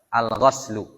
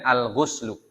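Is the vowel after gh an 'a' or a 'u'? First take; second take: a; u. First: The vowel after gh is an 'a'. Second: The vowel after gh is a 'u'. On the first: "bisa pakai fathul ghain. Bacanya al-ghas" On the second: "Dan dhammiha, baca dengan"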